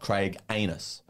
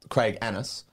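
First: The surname sounds like the word 'anus'. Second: The surname sounds like 'Annis' with a short vowel. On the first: The speaker calls it wrong. "not Craig Anus" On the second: The speaker calls it right. "It's extremely important that it's Craig Annis"

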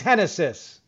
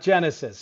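First: The name starts with an H-like sound. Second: The name starts with a J sound. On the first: This is how the player's name is said. The speaker calls it right. "he's Genesis" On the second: This is how the band's name is said. The speaker calls it wrong. "not Genesis"

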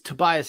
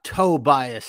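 First: The first syllable does not sound like 'toe'. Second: The first syllable sounds like the word 'toe'. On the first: The speaker calls it right. "It's Tobias Harris" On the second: The speaker calls it wrong. "it's like you're referencing his big toe"

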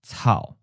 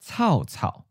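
First: The tone starts mid and falls. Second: The tone starts high and falls sharply. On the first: "third tone mid-falling as the original tone" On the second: "the first syllable changing to second tone high-falling"

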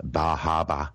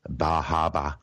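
First: The R sounds are dropped, Maine style. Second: The same.

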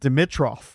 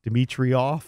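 First: No extra i vowel sound is added in the name. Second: An extra i vowel sound is added in the name. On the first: The speaker calls it right. "Because he doesn't have that second I" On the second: The speaker calls it wrong. "And I was like throwing the I in there"

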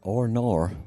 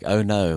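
First: It is said in an imitated Australian accent. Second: It is said in a plain American accent. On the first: "but or nor" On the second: "Like oh no"

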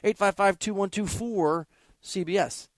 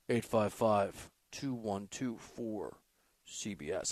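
First: It is said in his normal voice. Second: It is said slowly in a deeper voice.

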